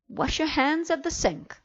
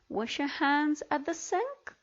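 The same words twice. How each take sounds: First: It is said with firm command intonation. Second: It is said with question-like, non-command intonation. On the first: The speaker calls it right. "Let's read them correctly" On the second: The speaker calls it wrong. "as if they were questions or statements"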